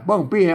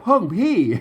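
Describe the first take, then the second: First: The words start with an unaspirated p sound. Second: The words start with an aspirated ph sound. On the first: This is the intended local reading. "อ่านว่า เปิ้งปี้ ... เสียงโทนะครับ" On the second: This is how standard national reading rules render it. "ต้องเอาหลักการภาษาไทยอ่านนะ เพิ่นก็อ่านว่า อย่างงี้นะ"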